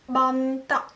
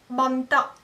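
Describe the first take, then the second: The two takes are said the same way.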